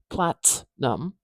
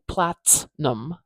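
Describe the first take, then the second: No difference in how they are said.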